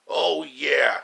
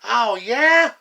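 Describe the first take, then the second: First: Shouted comeback. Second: Defiant retort. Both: Acted. Villains squabbling, trading taunts.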